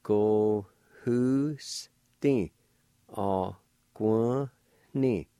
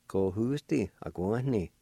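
First: "Ko hu sti a guan ni" drawn out very slowly; slow syllable-by-syllable "Ko hu sti a guan ni"; slow blended word. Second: Said in the usual way. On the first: Shown as a demonstration. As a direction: stretch the whole word out. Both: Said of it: "And together".

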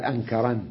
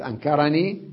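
First: أنكرن closed on n, no ee; ya dropped. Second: أنكرني with final ee; original form. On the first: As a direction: stop on the n of أنكرن. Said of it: "نعم، قال". (حذف الياء) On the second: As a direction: sound the ee at the end of أنكرني. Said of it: "بدل يقول". (بإثبات الياء) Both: Shown as a demonstration.

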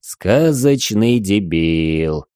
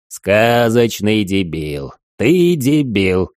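First: Slow, deadpan mocking echo; mocking repeat. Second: Slow, near-shouting exasperation; holding back a shout. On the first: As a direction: draw out the insult slowly. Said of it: "Игорь повторил слова Димыча". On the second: Acted. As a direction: drag it out, then almost yell. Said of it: "Димыч почти кричал".

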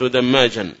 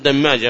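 First: دماجا ending in an audible -an; with tanwin ending. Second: دماجة ending in a plain open -a; without tanwin. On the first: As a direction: sound the final n on دماجا, tanwin style. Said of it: "ليش ما نقول دماجا". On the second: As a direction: drop any final n from دماجة. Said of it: "فقط من غير تنوين". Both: Shown as a demonstration.

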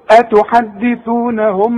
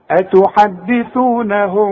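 First: أتحدثونهم slowly, the meem said with closed lips; lips closed wrong. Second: أتحدثونهم slowly, the meem hidden with open lips; lips parted. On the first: Teacher shows students the wrong closed-lip meem. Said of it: "لو هتقفل شفايفك هتقول لي". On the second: Teacher shows students the correct ikhfaa. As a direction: recite أتحدثونهم without closing the lips. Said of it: "اسمعها". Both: Shown as a demonstration.

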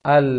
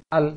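First: "Al" with the l drawn on a little; sustained lam. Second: "al" clipped, the l cut short; lam released too fast. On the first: Teacher showing the right lam after the wrong one. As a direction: let the l ring briefly. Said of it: "jalankan sedikit suaranya". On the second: Teacher showing the wrong hurried lam. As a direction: drop the l quickly. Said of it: "Jangan cepat nanti". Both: Shown as a demonstration.

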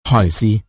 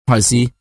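First: Softer, gentler. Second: Said in the usual way. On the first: A narrator's reading. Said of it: "nhắc lại khẽ hơn và dịu dàng hơn". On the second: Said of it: "nhắc lại khẽ hơn".

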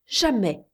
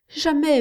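First: Said in the usual way. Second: Jamais pushed high and insistent; emphatic jamais. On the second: Acted. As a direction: hit Jamais high and hard. Insistent repeat. (Jamais appuyé, plus aigu)

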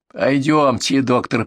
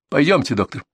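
First: Sneering parrot of a polite invitation; mocking mimicry. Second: Said in the usual way. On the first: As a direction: mimic the words back mockingly. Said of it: "передразнила соседка".

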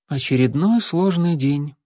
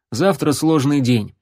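First: Flat deadpan drone; monotone. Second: Said in the usual way. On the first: Acted. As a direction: say it with no expression at all. (монотонно, без выражения) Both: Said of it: "монотонно сказал Алан".

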